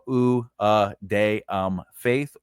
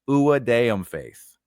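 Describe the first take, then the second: First: The phrase is spoken slowly and drawn out. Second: The phrase is spoken quickly and run together.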